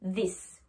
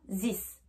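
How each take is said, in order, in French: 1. Il commence avec la langue entre les dents. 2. Il commence sans la langue entre les dents. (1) "je mets bien ma langue entre mes langues pour le prononcer" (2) "Je ne dis pas this"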